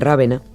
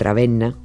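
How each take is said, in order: First: The stress is on the first syllable. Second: The stress is on the second syllable.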